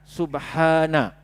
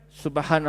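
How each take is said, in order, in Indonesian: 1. Vokal setelah h dibaca panjang. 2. Vokal setelah h dibaca pendek. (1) "Jadi bacanya subha, dua harakat" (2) "kalau kita baca laju, kita buang mad tu"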